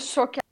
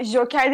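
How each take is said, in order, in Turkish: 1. Kelime 'sh' sesiyle başlıyor. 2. Kelime 'j' sesiyle başlıyor. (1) "Doğru telaffuz çok önemli. Şoker diyorlar" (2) "O Joker değil"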